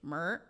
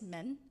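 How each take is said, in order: First: The word ends with an r-like sound. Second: The word ends without an r-like sound. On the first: "the Beijing accent is adding a lot of like er sounds" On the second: "the word for door is men"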